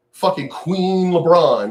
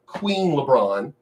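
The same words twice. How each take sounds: First: Said in the usual way. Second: Queen stressed, said slowly with a rise; slow, mocking Queen LeBron. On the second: Shown as a demonstration. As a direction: lean on Queen as a taunt. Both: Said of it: "not King".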